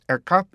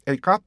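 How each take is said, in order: First: "a cup" with "a" shortened to a light "eh"; reduced article A. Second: "a cup" with a full "ay" on "a"; full article A. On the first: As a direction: keep only the front of the "ay" in "a cup". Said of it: "요 앞에 부분이 거의 남고요". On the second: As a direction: say "a" as the letter name before "cup". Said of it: "이렇게 발음하다 나중에는". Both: Shown as a demonstration.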